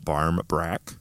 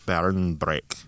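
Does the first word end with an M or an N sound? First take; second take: M; N. First: The first word ends with an M sound. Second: The first word ends with an N sound. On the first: This is the English way of saying it. "One is barm with an M, That would be like the English" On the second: This is the Irish way of saying it. "And then Irish, it's two separate words"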